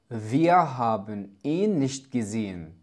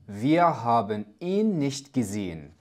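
First: Every syllable is pronounced clearly and in full. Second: The same.

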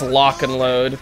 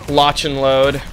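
First: The first word ends with a k sound. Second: The first word ends with a ch sound. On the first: The speaker calls it wrong. "I don't know how many times you guys have been told me" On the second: The speaker calls it right. "this is how you pronounce it"

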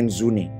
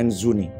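No difference in how they are said.

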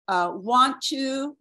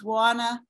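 First: Both words are said fully and separately. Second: The words are reduced and run together quickly.

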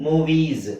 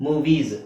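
No difference in how they are said.

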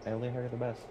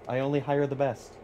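First: It is said with a straight, unsmiling voice. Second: It is said with a smile in the voice.

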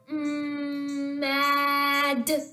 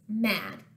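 First: The word is said slowly, sounds stretched out. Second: The word is said fast, sounds run together. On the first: "you're going to say the word slowly without stopping between the sounds" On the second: "Say it fast"

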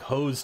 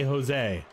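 First: The name is said as one syllable. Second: The name is said as two syllables. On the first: The speaker calls it wrong. "that looks like hose to me" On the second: The speaker calls it right. "but they say Jose"

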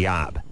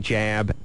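First: The word begins with a Y sound. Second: The word begins with a J sound. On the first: "and I can say yab" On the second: "I can say jab"

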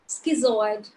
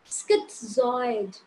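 First: There is no t sound before the z. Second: A slight t sound comes before the z. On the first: The speaker calls it wrong. "we pronounce this word as schizoid, but this is not schizoid" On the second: The speaker calls it right. "A little bit of T sound is there. This word is schizoid"

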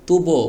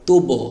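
First: The final vowel sounds like o. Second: The same.

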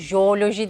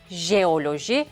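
First: The first consonant is simplified. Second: The first consonant is a soft j sound. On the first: The speaker calls it wrong. "Jeoloji deyip kolaylaştırma eğilimindeyiz" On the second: The speaker calls it right. "doğrusu jeoloji"

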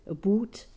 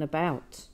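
First: It is said with a Canadian vowel. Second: It is said with a non-Canadian vowel. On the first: "we say" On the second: "rather than"

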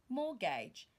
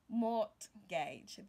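First: The word is said with no 't' sound. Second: The word is said with a 't' sound. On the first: The speaker calls it right. "The T there is not pronounced" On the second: The speaker calls it wrong. "and not mortgage"

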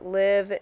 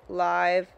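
First: The vowel is short, rhyming with 'give'. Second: The vowel is long, rhyming with 'five'. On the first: The speaker calls it right. "I know it's live" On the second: The speaker calls it wrong. "not live. My bad"

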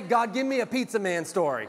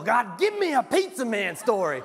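First: It is said in an ordinary voice. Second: It is said with a growl in the voice. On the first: "Somebody say" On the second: "You got to have some growl in your voice"

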